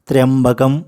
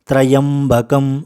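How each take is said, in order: First: The opening sounds are joined into one syllable. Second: The opening sounds are split into two syllables. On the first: It gives the full result. The speaker calls it right. "త ర య ఈ ఇవన్నీ కలిపి ఒకే అక్షరంగా పలకాలి" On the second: It gives only a partial result. The speaker calls it wrong. "విడదీసి అధిక శాతం మంది పలుకుతూ ఉంటారు"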